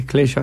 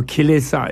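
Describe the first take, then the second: First: "klesha" said in two syllables with a sh sound; Sanskrit pronunciation. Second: "kilesa" said in three syllables with an s sound; Pali pronunciation. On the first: Buddhist scholar gives the Sanskrit word, "klesha" with a sh. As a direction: say "klesha" the Sanskrit way, KLE-sha, opening on a kl cluster. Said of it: "klesha in Sanskrit". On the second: Buddhist scholar gives the Pali word, "kilesa" with a plain s. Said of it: "or kilesa in Pali". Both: Shown as a demonstration.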